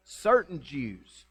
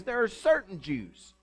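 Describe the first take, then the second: First: "Certain" stretched very slowly; stress on certain. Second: "certain" drawn out slowly and leaned on; stress on certain. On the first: Preacher repeating the verse to stress its wording. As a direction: draw out "Certain" word by word. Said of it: "But he says". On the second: Preacher pointing out the key word in the verse. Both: Shown as a demonstration.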